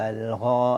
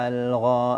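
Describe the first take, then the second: The two takes are said the same way.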